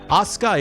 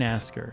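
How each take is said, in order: First: The name is said as three syllables, Asuka. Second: The name is said as two syllables, Asker. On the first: The speaker calls it right. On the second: The speaker calls it wrong.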